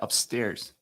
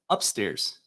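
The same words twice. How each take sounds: First: It is said the usual way. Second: It is said the New Orleans way. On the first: "instead of" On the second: "down in New Orleans, they say"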